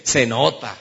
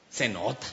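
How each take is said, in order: First: Punchy, loud echo of an answer; emphatic quoted reply; louder repeat. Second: Said in the usual way. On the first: Retold or imitated. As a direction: repeat it loudly for the whole room.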